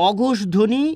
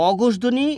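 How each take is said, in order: No difference in how they are said.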